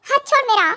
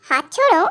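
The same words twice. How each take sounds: First: Higher-pitched urgent protest; pained demand. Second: Mocking echo. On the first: Acted. Victim tells Tae to release his hand, pained protest. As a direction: urge him to let go, pitched up. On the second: Tae repeats the victim's plea, mocking menace. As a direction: throw the plea back at him.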